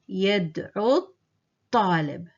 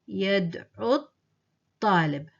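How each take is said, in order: Both takes have the same delivery.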